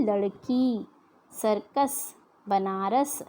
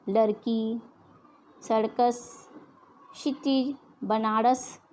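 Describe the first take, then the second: First: Said in the usual way. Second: Bihari-style सर्कस and बनारस with a flapped ड़ sound; imitating Bihari speech, र turned to ड़; Bihari pronunciation. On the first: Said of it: "लेकिन शुद्ध शब्द क्या है". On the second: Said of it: "Bihari भाषा में". (बिहारी लहजे में, र को ड़ बोलते हुए)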